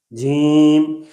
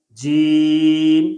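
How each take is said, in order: First: جیم with the ee through the nose; nasalized vowel. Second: Said in the usual way. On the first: Shown as a demonstration. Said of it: "ایک دفعہ غلط پڑھیں گے". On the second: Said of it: "ایک دفعہ صحیح پڑھیں گے".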